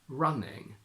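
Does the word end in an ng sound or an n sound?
ng. The word ends with an ng sound.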